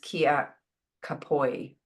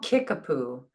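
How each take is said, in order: First: It is said with vowels that follow the spelling. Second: It is said as the familiar English form 'Kickapoo'. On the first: This is a guess at the people's own pronunciation. "I imagine it's pronounced Kia Kapoi" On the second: This is the common English version of the name. "And they're called Kickapoo"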